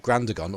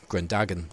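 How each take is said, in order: First: It is said with a standard pronunciation. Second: It is said with a Scottish pronunciation.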